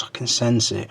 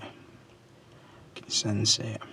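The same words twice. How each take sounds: First: Said in the usual way. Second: Whispered very slowly, like a seer; slow eerie whisper. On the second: Shown as a demonstration. To his viewers, a slow mysterious whisper.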